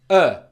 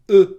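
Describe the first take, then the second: First: The vowel is said with unrounded lips. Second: The vowel is said with rounded lips. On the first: The speaker calls it right. "my lips are unrounded. It's uh" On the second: The speaker calls it wrong. "It's not uh"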